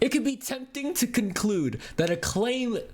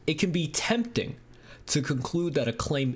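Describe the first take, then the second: First: It is read in a plain, casual voice. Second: It is read in a put-on, smart-sounding voice.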